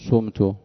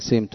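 First: The first vowel is a u sound. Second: The first vowel is an i sound. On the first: I bargained with someone. The speaker calls it wrong. "ولا تقول سمت حتى لا يلتبس المبني للفاعل" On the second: Someone else bargained with me. The speaker calls it right. "تقول سمت تكسر"

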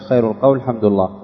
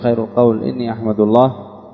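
First: The hamza after al-qawl takes the vowel a. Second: The hamza after al-qawl takes the vowel i. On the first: The phrase is treated as a single noun-like clause. "على الفتح" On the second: The quoted sentence stands as the predicate. "وعلى الكسر"

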